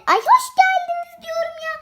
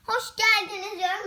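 First: High, loud, exasperated correction; fed up that nobody gets it right; high-pitched huffy insistence. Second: Said in the usual way. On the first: Pretend.

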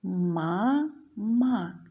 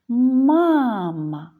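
First: «мама» as two long, separate syllables; read by syllables. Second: Calling out. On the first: Teacher reads to children, «мама» split into syllables. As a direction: sound out «мама» slowly, ma, pause, ma. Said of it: "Прочитаємо слово". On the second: Teacher shows children the stress, «Мама» called out. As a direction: call «Мама», stretching the stressed MA. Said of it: "необхідно слово погукати". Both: Shown as a demonstration.

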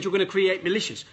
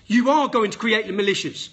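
First: Said in the usual way. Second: ARE hit hard, every word spelled out; emphatic insistence. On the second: Real, not acted. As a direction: punch ARE and say "going to" in full. Repeats his warning emphatically.

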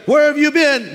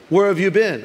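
First: High, loud insistent demand; mother demanding. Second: Questioning mother. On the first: Mother asks her child one last time, loud demand. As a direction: demand an answer as an exasperated mother. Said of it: "I'm gonna ask you one more time". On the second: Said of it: "Do you have a mother?". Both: Acted.

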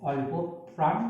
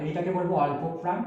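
First: অল্প, then a pause, then প্রাণ; teacher spacing out অল্প প্রাণ for the class; syllable by syllable. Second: Said in the usual way. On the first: Shown as a demonstration. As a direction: split অল্প and প্রাণ with a clear break.

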